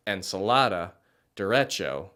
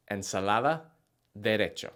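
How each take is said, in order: First: "ensalada, derecho" with drawn English vowels; anglicized Spanish. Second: "ensalada, derecho" with short vowels, soft d and tapped r; Spanish pronunciation. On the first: Teacher showing the version to avoid, anglicized. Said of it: "you sound less like". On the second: Teacher modeling the proper Spanish version. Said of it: "sound closer to". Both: Shown as a demonstration.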